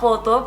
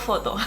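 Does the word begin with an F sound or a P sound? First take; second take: P sound; F sound. First: The word begins with a P sound. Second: The word begins with an F sound. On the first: "lo van a decir como poto" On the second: "el coreano va a entender con foto"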